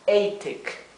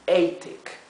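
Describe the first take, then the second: First: The first vowel is a long 'ay'. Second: The same.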